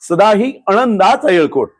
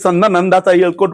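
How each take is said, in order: First: The opening words are separate as sada hi anandacha. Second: The opening words run together as sanda nandacha. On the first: The speaker calls it right. "उच्चार करताना कसं झाला पाहिजे" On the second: The speaker calls it wrong. "ते चुकीचं म्हणतात"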